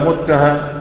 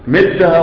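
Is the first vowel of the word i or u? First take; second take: u; i. First: The first vowel is u, as in muttaha. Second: The first vowel is i, as in mittaha. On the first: "بالضم" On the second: "كسر الميم"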